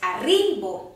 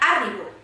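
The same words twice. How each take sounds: First: The stress is on the middle syllable. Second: The stress is on the first syllable. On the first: The speaker calls it right. "La síl·laba tònica és la ri, perquè és arribo" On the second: The speaker calls it wrong. "no és la A, perquè seria arribo"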